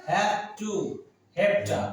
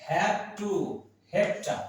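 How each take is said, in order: The two takes are said the same way.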